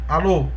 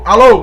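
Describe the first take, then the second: First: The word is said softly, at low volume. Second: The word is said loudly, at high volume. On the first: "som fraco" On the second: "som alto"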